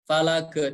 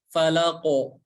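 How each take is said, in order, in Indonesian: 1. Gema akhir terdengar seperti vokal e. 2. Gema akhir terdengar seperti vokal o. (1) "bukan falake" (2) "tapi falako"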